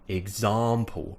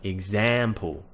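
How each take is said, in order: First: The stressed vowel is a long back 'ah'. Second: The stressed vowel is a short front 'a'. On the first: "words which make you sound very British" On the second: "as Americans pronounce it"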